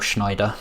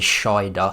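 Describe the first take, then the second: First: The name is said with an n sound. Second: The name is said without an n sound.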